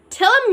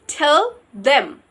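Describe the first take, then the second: First: Them is reduced to a short 'em sound. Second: Them is said in full with its th sound.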